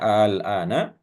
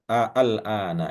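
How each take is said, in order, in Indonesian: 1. Vokal pembuka ditahan sebagai satu bunyi panjang. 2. Vokal pembuka dibaca terpisah menjadi dua huruf a. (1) "kalau membacanya harus panjang ya" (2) "Asalnya daripada kalimat al-ana ya. A-nya dua itu ya"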